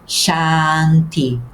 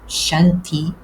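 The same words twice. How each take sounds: First: The first vowel is held long. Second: The first vowel is short and quick. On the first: The speaker calls it right. "mas sim" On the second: The speaker calls it wrong. "não devemos pronunciar"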